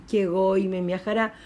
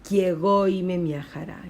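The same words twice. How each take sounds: No difference in how they are said.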